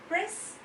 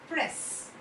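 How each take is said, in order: The two takes are said the same way.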